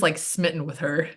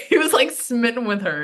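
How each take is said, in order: First: Said in the usual way. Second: Higher, through real laughter; laughing. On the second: Real, not acted. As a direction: tease him while laughing. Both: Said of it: "He'll kill me for that".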